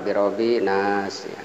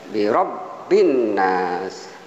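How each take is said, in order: First: The nasal n sound is short, not held. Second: The nasal n sound is doubled and held. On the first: The speaker calls it wrong. "Yang kurang benar adalah" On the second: The speaker calls it right. "ini ada uh, nun, kemudian tasdid, sehingga dibacanya uh, bi rabbin nas"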